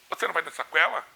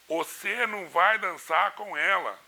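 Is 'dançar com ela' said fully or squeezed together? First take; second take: squeezed together; fully. First: The words are squeezed together in a local accent. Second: The words are pronounced fully and separately. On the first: This is how locals say it. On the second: This is the standard way to say it.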